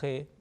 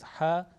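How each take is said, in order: First: The letter name is said with an Urdu pronunciation. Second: The letter name is said with an Arabic pronunciation. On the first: The speaker calls it wrong. "This is a you know Urdu talaffuz" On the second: The speaker calls it right. "the right pronunciation of Arabic letter is"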